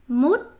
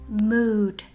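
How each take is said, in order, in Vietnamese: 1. Từ này được phát âm theo kiểu tiếng Việt. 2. Từ này được phát âm theo kiểu tiếng Anh. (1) "say mood" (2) "Don't say mood"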